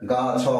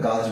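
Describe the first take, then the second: First: The word is split into two separate sounds. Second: The word is said as one joined syllable. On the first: The speaker calls it wrong. "কখনোই গা ছ হবে না" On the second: The speaker calls it right. "গাছ বলতে হবে"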